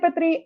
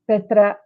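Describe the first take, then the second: First: The name sounds like Fitri. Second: The name sounds like Petra. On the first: This is the speaker's own habitual way of saying it. The speaker calls it wrong. "I say Fitri" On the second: This is how the name's owner says it. The speaker calls it right. "she pronounces it Petra"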